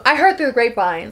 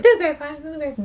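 First: Said in the usual way. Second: Higher sung echo of a phrase; sung, break into a sing-song refrain; playful singing. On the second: Pretend. Teasing a character with a gossip phrase, sung playfully.

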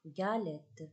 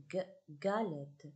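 First: Said in the usual way. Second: "galette" with the opening g sounded alone first, then the whole word slowly; teacher sounding out the g of "galette"; first sound isolated. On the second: Shown as a demonstration. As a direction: say a separate hard "g", pause, then "galette". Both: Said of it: "on entend le son gue".

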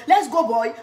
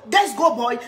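The two takes are said the same way.

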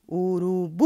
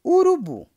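First: "Urubu" with the final "bu" held very long; chamando, sílaba tônica prolongada. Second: Said in the usual way. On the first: Shown as a demonstration. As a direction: call out "Urubu" as if to someone, stretching the last syllable "bu". ("Urubu" chamado com o "bu" bem esticado) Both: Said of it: "Chame o urubu".

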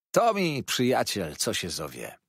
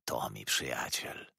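First: Hearty approving declaration; emphatic assertion. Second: Low, slow, soft mutter; quiet approving murmur. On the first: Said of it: "twierdził rybak". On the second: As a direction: murmur it slowly to yourself. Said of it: "mruczał". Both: A narrator's reading.

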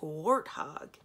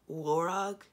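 First: "warthog" said slowly as the animal word; misheard name. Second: "Warog" said slowly, two syllables war-og; corrected name. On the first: Retold or imitated. Prince unsure of the dragon's name, slow "warthog". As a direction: stretch out "warthog" as the prince heard it. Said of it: "it sounded like warthog". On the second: Acted. Cimarine guessing the real dragon name, careful "Warog". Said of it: "Could it have been Warog?".

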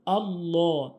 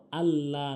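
First: আল্লাহ with a rounded, dark "law"; correct heavy lam. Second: আল্লাহ with a thin open "laa"; wrong light lam. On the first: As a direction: round the second syllable of আল্লাহ. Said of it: "আল্লাহ না". (আল্লাহ মোটা ল দিয়ে) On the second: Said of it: "বলা যাবে না". (আল্লাহ পাতলা লা দিয়ে) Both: Shown as a demonstration.

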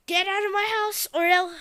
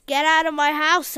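First: Higher loud threat; threat shout. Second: Much louder, firm order; shouting order. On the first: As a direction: warn him one last time. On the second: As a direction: throw him out. Repeats louder. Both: Acted.

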